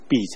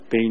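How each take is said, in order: First: The syllable is pronounced bi. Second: The syllable is pronounced bei. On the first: The speaker calls it right. "那个字读婢才对" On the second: The speaker calls it wrong. "有人把它读作卑卑女"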